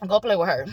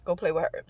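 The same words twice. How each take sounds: First: Sending spirits after someone, half joking; mock command. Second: Same order, much softer and lower, trailing; softer mock command. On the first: Vlogger jokingly sics her demons on a rude shopper, mock commanding. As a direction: pretend order to the demons, sly. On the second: Vlogger repeats her order to the demons, softer and trailing. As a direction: murmur it low, letting it fade. Sending the demons after a stranger.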